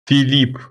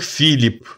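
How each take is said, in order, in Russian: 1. Ударение на втором слоге. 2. Ударение на первом слоге. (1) "Это у нас Филипп" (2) "А у них Филипп. У них ударение на другую"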